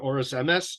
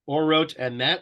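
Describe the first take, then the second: First: The words end with an s sound. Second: The words end with a t sound.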